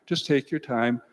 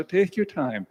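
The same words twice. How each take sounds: First: Said in the usual way. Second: Lightly imitating a gentle dad, soothing; gentle fatherly advice. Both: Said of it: "Dad was a very gentle person".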